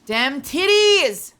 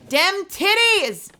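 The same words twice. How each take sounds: First: Slow, stretched mock exclamation; playful slow exclamation; drawn-out exclaim. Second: Much higher, slow, silly cartoon voice; hammed-up high goofy voice; goofy put-on voice. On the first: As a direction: drag every word out for comic effect. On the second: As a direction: squeeze it up high and drag it out as a joke. Repeat in a put-on voice.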